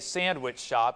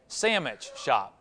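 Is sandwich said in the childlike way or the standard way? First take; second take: standard; childlike. First: Sandwich is said in its full, standard form. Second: Sandwich is said the way little kids say it. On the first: "It didn't say sandwich shop" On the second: "It said sandwich shop"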